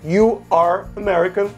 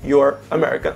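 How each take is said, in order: First: "You are" is said as two full words. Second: "You are" is contracted into one syllable.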